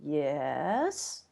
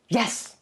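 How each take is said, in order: First: It is said doubtfully, with hesitant uncertainty. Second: It is said with impatient, exasperated annoyance. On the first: The speaker only half agrees. "which kind of means well, maybe" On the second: The speaker is tired of repeating it. "I've told you that a thousand times"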